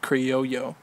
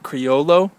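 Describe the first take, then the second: First: The double L sounds like an English Y. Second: The double L sounds like an English L. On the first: This follows the Spanish double L rule. "it's a double L, so I guess that's Criollo" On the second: This is how many people say it. "A lot of people would probably pronounce that Criollo"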